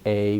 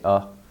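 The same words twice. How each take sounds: First: The word is stressed with a full vowel. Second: The word is unstressed with a reduced vowel. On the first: The speaker calls it wrong. "we don't usually say a" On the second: The speaker calls it right. "we say a"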